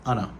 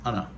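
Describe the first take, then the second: First: The words are reduced further to anna. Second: The words are reduced further to anna.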